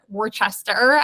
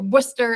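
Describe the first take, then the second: First: The name is said with every written syllable. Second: The name is said in its short, reduced form. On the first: The speaker calls it wrong. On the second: The speaker calls it right.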